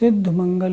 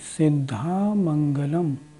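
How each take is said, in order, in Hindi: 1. अंतिम स्वर और अक्षर के अंत छूट जाते हैं। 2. अंतिम स्वर और अक्षर के अंत पूरी तरह बोले जाते हैं। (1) "सिद्ध मंगल नहीं" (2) "सिद्धा मंगलम इस तरह बोलना है"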